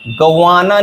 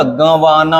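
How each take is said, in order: First: गंवाना without the nasal, a plain ga-waa-naa; wrong pronunciation. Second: गंवाना with a nasalised first vowel, gan-waa-naa; correct pronunciation. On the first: Teacher showing students the mistake, गंवाना said un-nasalised. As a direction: say गंवाना with no nasal on the first syllable. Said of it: "नहीं होता". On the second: Teacher explaining the chandrabindu, गंवाना said with nasal first syllable. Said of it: "ग पे आता है चंद्र बिंदु". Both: Shown as a demonstration.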